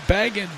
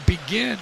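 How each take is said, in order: First: The surname sounds like the word 'begging'. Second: The surname sounds like the start of 'beginning'. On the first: This is how someone else was heard saying it. "I'm begging for the right pronunciation" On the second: This is how the commentator has been saying it. "I like Charlie Begin because it was, you know, he was always beginning"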